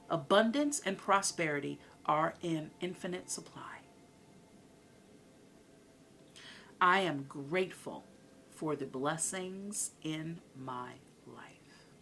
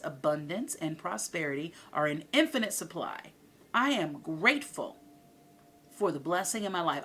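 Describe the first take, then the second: First: It is said more slowly. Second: It is said at a normal pace.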